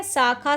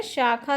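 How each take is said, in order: First: शाखा said with s, as "sakha"; wrong pronunciation. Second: शाखा said with sh, as "shakha"; correct pronunciation. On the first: Teacher showing students the error, शाखा as "sakha". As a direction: open शाखा on a plain s. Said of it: "शब्द गलत है". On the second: Teacher giving students the right form, शाखा as "shakha". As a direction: open शाखा on a clear sh. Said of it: "शब्द सही है". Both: Shown as a demonstration.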